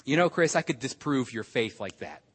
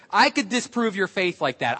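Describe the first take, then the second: First: Low, quiet matter-of-fact challenge; retold friend's challenge. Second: Firm comeback at full speaking level; retold retort, plainly voiced and assured. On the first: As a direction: retell a friend's understated boast, low and soft. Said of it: "He said to me". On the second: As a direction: hand the challenge back to a friend. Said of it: "I said".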